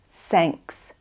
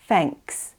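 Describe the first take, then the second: First: The word begins with an s sound. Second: The word begins with an f sound. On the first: "try not to say s, sanks instead of thanks" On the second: "You'll also want to avoid saying f, like thanks"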